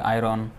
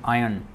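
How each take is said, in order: First: The word is pronounced the Indian way. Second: The word is pronounced the standard way. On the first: The speaker calls it wrong. "in India, they pronounce it differently" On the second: The speaker calls it right. "But actually, the pronunciation is iron"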